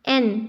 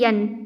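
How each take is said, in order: First: It begins directly with a vowel. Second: It begins with a y sound. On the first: The speaker calls it right. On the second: The speaker calls it wrong.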